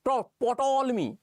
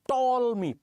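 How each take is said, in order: First: The name starts with a P sound. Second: The name starts with a T sound. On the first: The speaker calls it wrong. "मुझसे कहा भी नहीं जा रहा" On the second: The speaker calls it right. "पी का कोई pronunciation नहीं था"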